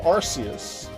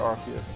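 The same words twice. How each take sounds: First: The first syllable sounds like 'arse'. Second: The first syllable does not sound like 'arse'. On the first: This is the original form of the name. "originally it was supposed to be Arceus" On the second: This form avoids a rude word in British English. "they decided to change it to Arceus"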